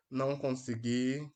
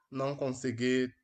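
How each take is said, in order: Both takes have the same delivery.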